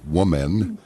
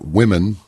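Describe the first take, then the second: First: It is said like the singular word woman. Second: It is said with the usual plural vowel sounds.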